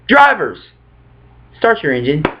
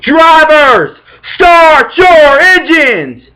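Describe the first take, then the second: First: It is said flatly and quietly, sounding bored. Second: It is said loudly and energetically, sounding excited.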